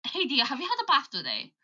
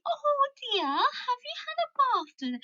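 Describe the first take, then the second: First: Natural Birmingham accent; understated Brummie accent. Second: Very high, hammed-up English accent; mock English accent in a high voice; exaggerated English accent. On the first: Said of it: "But the Birmingham accent". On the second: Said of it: "it's not like". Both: Shown as a demonstration.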